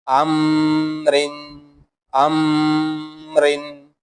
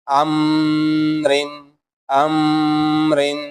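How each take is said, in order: No difference in how they are said.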